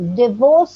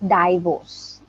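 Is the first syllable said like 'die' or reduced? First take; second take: reduced; die. First: The first syllable has a short, weak vowel. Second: The first syllable sounds like the word die. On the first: The speaker calls it right. "the I that I is si- silent" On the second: The speaker calls it wrong. "not divorce. It's you're going by the spelling D I die"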